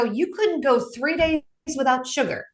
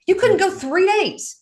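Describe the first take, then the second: First: Said in the usual way. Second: You couldn't go three days pitched much higher and slowed, stress on couldn't; emphatic repeat. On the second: Real, not acted. Counselor repeats the point to the family, emphatic and slow. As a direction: lean hard into "couldn't", drawn out.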